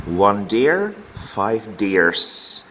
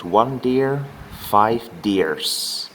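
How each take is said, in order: First: Said in the usual way. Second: The final S of "deers" said clearly and held; stress the S sound. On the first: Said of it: "Do you hear the difference? The S sound". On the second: Shown as a demonstration. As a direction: lean on the S at the end of "deers". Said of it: "The S sound".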